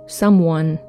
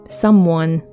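The two takes are said the same way.

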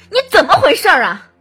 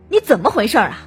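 First: Furious tone with the greatest force. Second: Clearly angry tone with stronger force. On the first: The speaker has lost their temper. "愤怒" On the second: The speaker is clearly angry. "生气"

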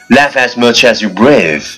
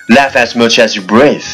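Both takes have the same delivery.

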